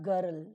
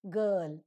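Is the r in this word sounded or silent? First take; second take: sounded; silent. First: The r sound is pronounced in the word. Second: The r sound is silent in the word. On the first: The speaker calls it wrong. "not girl" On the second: The speaker calls it right.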